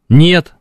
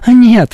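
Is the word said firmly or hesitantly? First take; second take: firmly; hesitantly. First: The word is said firmly and clearly. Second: The word is said softly and hesitantly. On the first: The refusal is final and unmistakable. The speaker calls it right. "Твердое, понятное «нет»" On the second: The refusal may not be meant seriously. The speaker calls it wrong. "вот этого не надо"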